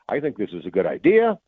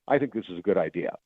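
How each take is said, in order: First: The voice rises at the end. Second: The voice falls at the end. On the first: The statement sounds incomplete. "ending any statement on an upswing" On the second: The statement stands on its own. "as opposed to saying"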